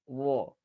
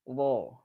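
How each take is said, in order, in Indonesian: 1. Huruf r diucapkan dengan sedikit getaran. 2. Huruf r diucapkan dengan sedikit getaran.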